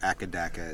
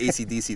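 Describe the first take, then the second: First: The letters are run together into one word. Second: The name is spelled out as separate letters.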